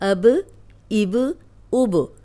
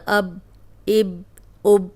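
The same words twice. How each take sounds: First: Each final b is released with a bouncing echo. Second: Each final b is stopped short without release. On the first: The speaker calls it right. "ये हिला के पढ़ना है" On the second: The speaker calls it wrong. "इसको ऐसे नहीं पढ़ना ... रोकना नहीं है"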